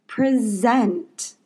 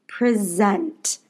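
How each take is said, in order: First: The stress falls on the second syllable. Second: The stress falls on the second syllable.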